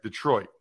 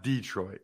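First: Detroit with the weight on -troit, de- short and light; stress on second syllable. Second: Detroit as DEE-troit, long stressed first syllable; wrong DEE-troit stress. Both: Shown as a demonstration. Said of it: "the emphasis is on the second syllable".

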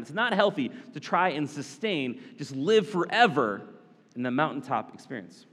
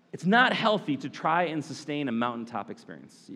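First: Said in the usual way. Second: Not pressed; stress on not. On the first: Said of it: "If you're taking notes". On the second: Shown as a demonstration. A preacher stresses not for note takers. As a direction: lean on not so they write it down. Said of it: "If you're taking notes, you can write that down".

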